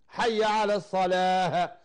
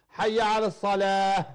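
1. الكلمة الأخيرة تنتهي بصوت الهاء. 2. الكلمة الأخيرة تنتهي بصوت الهاء.

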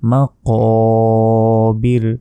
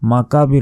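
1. k ধ্বনিটি একটি গভীর পেছনের q। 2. k ধ্বনিটি একটি সাধারণ সামনের k। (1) "এখানে আছে কফ" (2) "মাকাবির বললে এখানে ছোট কাফের উচ্চারণ হয়ে গেল"

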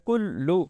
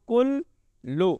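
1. दोनों अक्षर बिना ठहराव के जुड़े हुए हैं। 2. दोनों अक्षरों के बीच ठहराव है।

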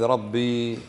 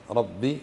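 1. تنتهي بياء مد طويلة. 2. تنتهي بكسرة قصيرة. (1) "هذه ربي فيها ياء" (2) "ربي شدة وكسرة"

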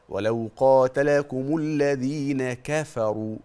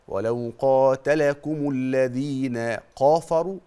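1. صوت الكاف خفيف ومرقق. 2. صوت الكاف مفخم، مثل القاف العميقة. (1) "حرف الكاف هذا حرف مرقق" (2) "لو أنت فخمت الحرف ده هينقلب من كونه كافا إلى كونه قاف"

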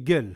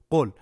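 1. Le mot commence par un son g. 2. Le mot commence par un son q profond. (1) "Ils disent Gel" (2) "Par exemple, Qaf, Qol"

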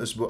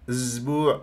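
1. صوت s همس واضح. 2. صوت s مجهور مثل z. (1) "اقول قول اسبوع" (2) "هذه اسبوع باللغه الدارجه"

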